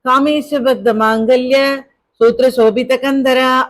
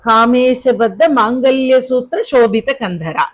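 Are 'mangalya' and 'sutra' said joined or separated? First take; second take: separated; joined. First: Mangalya and sutra are split by a break. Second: Mangalya and sutra are run together as one. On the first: The speaker calls it wrong. "அப்படின்னு சொல்லக்கூடாது" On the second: The speaker calls it right. "மாங்கல்ய சூத்திர சேர்த்துதான் படிக்கணும்"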